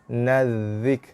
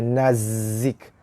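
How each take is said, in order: First: The consonant is a soft th sound. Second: The consonant is a hissing z sound. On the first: The speaker calls it right. "tapi nazik" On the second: The speaker calls it wrong. "Bukannya nazik"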